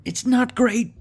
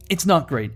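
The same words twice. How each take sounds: First: High, squeaky put-on voice; high mock voice. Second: Said in the usual way. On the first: Gamer judging his ragtag army in a squeaky voice. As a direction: squeak the verdict comically.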